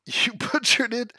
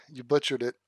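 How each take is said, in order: First: Slow, amused accusation through a laugh. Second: Said in the usual way. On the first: Real, not acted. Accusing the chat, laughing. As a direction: tease them while laughing.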